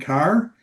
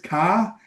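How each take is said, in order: First: The word ends with a clear R sound. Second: The word ends without an R sound. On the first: This is how it is said elsewhere. "instead of saying car" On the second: This is how people in Massachusetts say it. "They say things like ka... So they take the R off"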